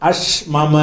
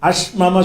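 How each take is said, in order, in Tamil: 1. இரண்டு m ஒலிகளும் தனித்தனியாக உச்சரிக்கப்படுகின்றன. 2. இரண்டு m ஒலிகளும் தனித்தனியாக உச்சரிக்கப்படுகின்றன.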